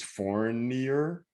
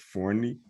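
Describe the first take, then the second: First: The final 'er' sound is pronounced. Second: The final 'er' sound is left off. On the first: "So I would think it's Fournier" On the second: "probably leave out the E R, so it's Fourni"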